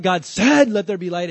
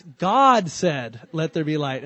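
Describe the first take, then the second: First: Loud emphatic "said" in mid-sentence; stress on SAID. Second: "God" drawn out slow and loud; long, weighty "God", lighter "said"; stress on GOD. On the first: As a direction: punch the word "said", letting "God" pass. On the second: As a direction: stretch and punch "God", ease off after it. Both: Shown as a demonstration. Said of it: "put the emphasis on the wrong word".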